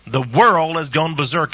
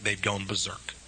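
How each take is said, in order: First: Louder, world stressed; booming preacher declaration. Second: Softer, dropping away; hushed before the outburst; quiet. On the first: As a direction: proclaim it to the whole room. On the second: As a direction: say it under your breath. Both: Real, not acted. Sermon, quiet then loud repeat.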